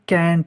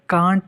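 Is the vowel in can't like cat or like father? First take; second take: cat; father. First: The vowel is a front 'a' as in cat. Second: The vowel is a broad 'ah' as in father. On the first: The speaker calls it right. "Exact अगर आप pronunciation देखें ... तो ये कैंट है" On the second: The speaker calls it wrong. "कांट नहीं है ... हम ए नहीं पढ़ते आ पढ़ते हैं"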